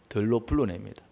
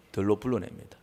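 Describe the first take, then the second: No difference in how they are said.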